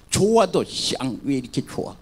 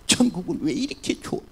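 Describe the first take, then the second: First: Sour grumble even about something good; grumbling, sour. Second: Said in the usual way. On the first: Retold or imitated. Preacher imitating a chronic complainer in heaven, sour grumble. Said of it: "기분 나쁘게". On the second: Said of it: "불평을 한 사람은 어디를 가도 불평을 하는 거니까".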